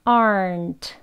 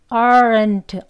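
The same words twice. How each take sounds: First: Relaxed "aren't" with the tongue root pulled back; natural tongue-root r. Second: "aren't" with a heavily curled r, stiff and unnatural; wrong curled-tongue version. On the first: Teacher models the right relaxed "aren't", easy and natural. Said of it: "뿌리 쪽을 당겨요". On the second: Teacher demonstrates the wrong curled-tongue "aren't", stiff. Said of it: "혀를 말아서 하시면". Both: Shown as a demonstration.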